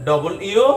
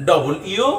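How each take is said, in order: No difference in how they are said.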